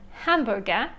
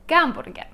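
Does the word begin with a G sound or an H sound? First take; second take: H; G. First: The word begins with an H sound. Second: The word begins with a G sound. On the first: This is the German and English pronunciation. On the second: This is the Russian pronunciation.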